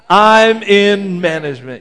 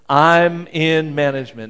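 First: It is said boldly, with more force. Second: It is said plainly, without extra force.

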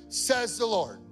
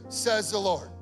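The two takes are said the same way.

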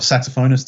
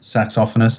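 First: The word is said in an American way. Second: The word is said in an Australian way.

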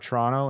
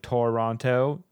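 First: It is said the local Canadian way. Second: It is said the American way.

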